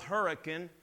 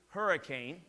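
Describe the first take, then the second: First: The name is said the local way. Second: The name is said the outsider way. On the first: The speaker calls it right. "He would call Hurricane" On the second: The speaker calls it wrong. "pronounce the towns in West Virginia the wrong way"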